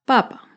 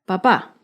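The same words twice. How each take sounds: First: "papa" as PA-pa, stressed at the start; stress on first syllable. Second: "papá" as pa-PÁ, stressed at the end; light pa, then a firm PÁ in "papá"; stress on last syllable. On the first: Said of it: "el acento está en la primera sílaba". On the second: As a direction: demonstrate "papá" with a strong final syllable. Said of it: "el acento está en la última". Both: Shown as a demonstration.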